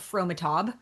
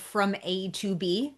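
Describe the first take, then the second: First: The name is run together as one word. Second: The name is said as separate, distinct words. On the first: The speaker calls it wrong. "not Fromatob, which is what my mom pronounced it as" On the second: The speaker calls it right. "called From A to B"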